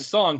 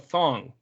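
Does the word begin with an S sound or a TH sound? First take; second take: S sound; TH sound. First: The word begins with a plain S sound. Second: The word begins with a lisped TH sound.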